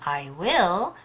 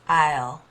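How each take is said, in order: First: Both words are said in full. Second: The two words merge into one syllable. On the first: "instead of saying I will" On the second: "usually when you're speaking, it becomes I'll"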